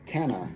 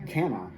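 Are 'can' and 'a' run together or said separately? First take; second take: run together; run together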